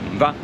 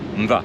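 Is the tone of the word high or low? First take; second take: high; low. First: The word is said on a high tone. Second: The word is said on a low tone. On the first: "it's a high tone" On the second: "it's a low tone"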